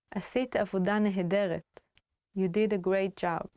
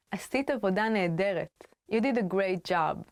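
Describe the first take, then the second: No difference in how they are said.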